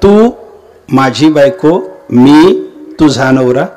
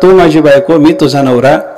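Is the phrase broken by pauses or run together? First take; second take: pauses; run together. First: The phrase is broken up by pauses. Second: The phrase is run together without pauses. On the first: The wives and the husbands are grouped together. "स्वल्प विराम कुठं द्यायचा तुला कळालं नाही" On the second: The listener is addressed as the speaker's own wife. "स्वल्प विराम न देता बोलला"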